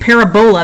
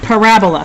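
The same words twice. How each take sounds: First: The word sounds like it rhymes with Ebola. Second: The word does not sound like Ebola. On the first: The speaker calls it wrong. "don't be saying pa- parabola. That sounds like Ebola" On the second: The speaker calls it right. "it's pronounced parabola"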